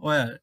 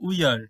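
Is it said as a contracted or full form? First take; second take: contracted; full. First: The words merge into one contracted syllable. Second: Two separate words are said in full.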